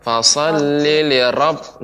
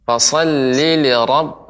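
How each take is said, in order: First: Fasholli li rabb with a strongly rolled, many-tap ra; trilled ra. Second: Fasholli li rabb with a heavy, velarized ra and little trill. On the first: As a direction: roll the ra in rabb heavily. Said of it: "Nah, itu banyak teba-, banyak getaran". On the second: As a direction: say rabb with a thick, dark ra. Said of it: "Nah, itu yang tebal". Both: Shown as a demonstration.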